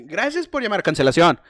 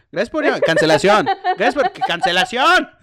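First: Loud, stiff phone greeting; call center operator voice. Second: Loud greeting breaking into laughter; laughing through it. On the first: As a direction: answer like a bored call center agent. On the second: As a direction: repeat the greeting while cracking up. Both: Retold or imitated.

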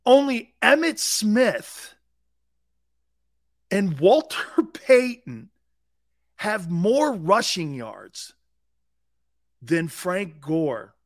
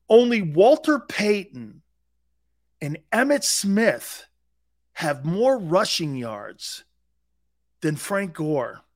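First: Higher, louder and very slow, hitting "Emmitt" hard; stronger repeat. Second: Each name said slowly and deliberately, "more" weighted; slow emphatic stat. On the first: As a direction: hammer the stat home a second time. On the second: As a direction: lay out the stat word by word, slowly. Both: Shown as a demonstration. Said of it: "Let me say that again to you".

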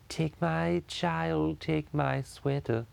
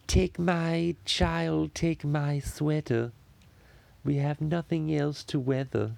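First: Very slow, higher cartoon baby voice; Stewie voice. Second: Slow, high, drawn-out cartoon baby voice; Stewie voice. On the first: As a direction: drag every word like a cartoon baby. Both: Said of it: "sounds good in the Stewie voice".

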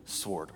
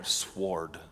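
First: "Sword" rhymes with cord, no W; silent w. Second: "sword" with a clear W after the s; w pronounced. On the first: Pastor settling on sword, W left silent. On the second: Pastor unsure how to say sword, voicing the W. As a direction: say "sword" as swɔɹd, sounding the W. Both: Shown as a demonstration. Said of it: "Do you pronounce the W?".

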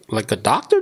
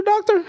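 First: Said in the usual way. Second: "doctor?" jumps way higher in disbelief; can't believe a real "doctor?" digs in the trash; disbelieving doctor?. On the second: Retold or imitated. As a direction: shoot "doctor?" up high, stunned.

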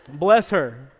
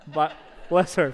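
First: Laughing. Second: Sincere blessing. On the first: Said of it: "But bless her, for sure". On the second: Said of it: "for sure". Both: Real, not acted.

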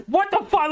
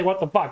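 First: High, stunned what the fuck; imitating aghast announcers; shocked disbelief. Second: Said in the usual way. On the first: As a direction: blurt it out in shock, pitched way up. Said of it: "the announcers again are like". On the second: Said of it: "I don't say".

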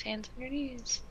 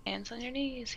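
First: Soft, high singsong teacher; kindergarten teacher voice. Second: Kindergarten teacher voice. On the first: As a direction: coax little kids sweetly. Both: Pretend.

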